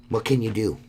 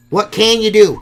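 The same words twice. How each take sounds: First: Said in the usual way. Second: Much higher and louder, throwing up your hands; a loud, exasperated what can you do; exasperated shout. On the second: Real, not acted. Repeats the phrase, then exclaims.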